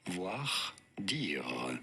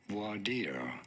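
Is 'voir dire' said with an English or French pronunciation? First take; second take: French; English. First: It is said with a French pronunciation. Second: It is said with an English pronunciation. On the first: "In French, for reference, it is said as" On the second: "in English, it is normally said as"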